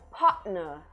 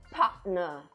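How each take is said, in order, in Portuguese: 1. É dito com um T glotal britânico. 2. É dito com um T glotal britânico.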